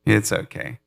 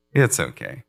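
First: Soothing God, repeated. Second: Much lower, hushed comfort; soothing God. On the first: God repeating comfort to a believer, light soothing. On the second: God reassuring a believer from the throne, low hushed soothing. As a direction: settle someone down gently. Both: Pretend. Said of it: "He's like".

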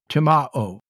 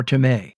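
First: "timao" with MAH, then a separate OH; alternate form pronounced. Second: "timē" ending in a stressed MAY; pronunciation shown. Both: Shown as a demonstration. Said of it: "is the way you say that".

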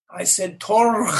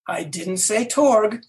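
First: Torg with a long guttural, rasped ending; Klingon pronunciation. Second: Said in the usual way. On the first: Retold or imitated. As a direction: scrape the end of Torg in the throat. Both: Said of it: "I said it in Klingon".

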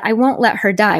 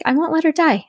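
First: Said in the usual way. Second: Her lifted higher and held; stress on her. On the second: Retold or imitated. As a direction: lean on "her", higher pitch. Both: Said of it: "which her was interesting".

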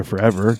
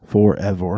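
First: Said in the usual way. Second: "forever" broken into heavy, drawn syllables; Sandlot movie quote. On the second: Acted. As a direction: intone "for-ev-or" like a movie line. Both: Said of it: "A little Sandbo-, Sandlot there".

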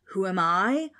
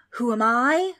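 First: Loud, affronted question; indignant ghost. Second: Loud, higher indignant roar. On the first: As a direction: throw the question back indignantly. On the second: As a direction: repeat it as an outraged ghostly roar. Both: A narrator's reading. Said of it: "roared the ghost".

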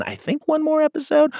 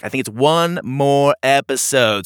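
First: "I think one more episode" raised high into a question; second-guess "one more episode" with pitch jumping up; unsure question. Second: "one more episode" louder, falling like a statement; settled statement. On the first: Host unsure of episode count, questioning rise on "one more episode". Host doubts own announcement. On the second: Host confirms episode count, firm falling "one more episode". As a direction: announce "one more episode" firmly, ending on a fall. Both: Real, not acted.

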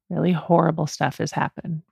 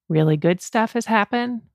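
First: "Really horrible stuff" dropped a little in pitch and volume; lowered contrasting tune. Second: "Really good stuff" lifted a little in pitch; lifted listing tune. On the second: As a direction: list "good stuff" on a raised, upbeat tune. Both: Real, not acted. Contrasts good and horrible life events.

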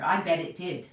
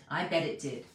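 First: Said in the usual way. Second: Softer and lower, a knowing aside; quiet repeat. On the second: Real, not acted. Preacher echoing himself to the congregation, quietly wry. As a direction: drop it down as a wry echo.

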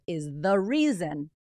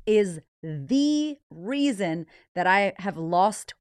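First: Said in the usual way. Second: "is the reason" drawn out slow and louder, rising on "the"; dramatic stress. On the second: Shown as a demonstration. Teasing her gross secret to listeners, slow drawn-out emphasis. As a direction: drag out "is the reason that I have lost" for suspense.

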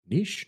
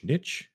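First: NICHE as "neesh", rising in question; pronounced neesh. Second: NICHE as "nitch", rising in question; pronounced nitch. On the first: Reader unsure of the word, trying it as neesh. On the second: Reader unsure of the word, trying it as nitch. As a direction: say NICHE to rhyme with itch, higher, questioning. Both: Shown as a demonstration. Asking which pronunciation is right.

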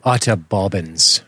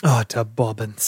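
First: Slow mock British "utter bobbins"; imitating a British friend; British accent. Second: Slow mock British "Utter bobbins"; echoing the British phrase; British accent. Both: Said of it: "That's Elton".

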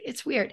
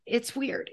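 First: "It's weird" softer, falling on "weird" as a statement; settled fall. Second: "it's weird" softer, rising at the end like a question; questioning rise. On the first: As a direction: land "weird" firmly downward. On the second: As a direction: float "weird" upward. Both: Shown as a demonstration. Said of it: "Like you said".

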